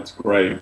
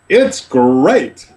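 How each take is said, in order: First: It is said flatly, without enthusiasm. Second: It is said with exaggerated enthusiasm.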